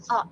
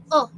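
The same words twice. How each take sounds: First: "oh" loosened toward a short, open "aw"; relaxed short O. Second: "oh" as the tenser vowel to avoid; wrong short O. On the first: Teacher models the short O, relaxed vowel. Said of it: "It's more relaxed". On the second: Teacher shows what short O is not, contrast demo. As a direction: say "oh" unrelaxed, as a long O. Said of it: "It's not oh". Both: Shown as a demonstration.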